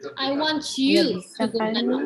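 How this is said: The word "you" is stressed. This person, not others, should go now. "maksudnya I want you, not others"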